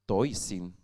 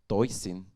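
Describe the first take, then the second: The two takes are said the same way.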